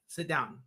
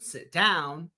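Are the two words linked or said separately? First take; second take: linked; separate. First: The two words are linked smoothly together. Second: The two words are said separately.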